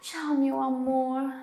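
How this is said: It sounds tender and loving. She is fondly saying goodbye to someone she loves. "um jeito mais romântico"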